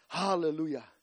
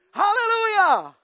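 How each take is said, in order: First: Hushed hallelujah. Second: Shouted hallelujah. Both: Real, not acted.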